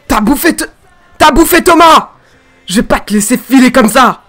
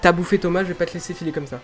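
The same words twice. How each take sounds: First: Loud, high yell of rage; furious dubbed shout. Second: Said in the usual way. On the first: Shown as a demonstration. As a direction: scream vengeance at the monster. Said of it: "c'est bien". (hurlement de colère) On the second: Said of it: "je vais essayer de continuer".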